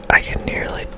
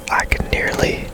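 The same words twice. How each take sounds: The two takes are said the same way.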